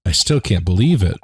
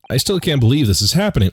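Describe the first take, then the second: First: Said in the usual way. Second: Quick, pitched up, giddy; excited. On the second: Real, not acted. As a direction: rush it out in delight.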